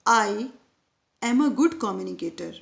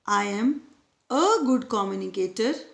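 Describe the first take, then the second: First: The stress falls on the word 'I'. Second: The stress falls on the word 'a'. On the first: "यहाँ पर मैंने आई पर stress दिया था" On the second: "next sentence में ए है"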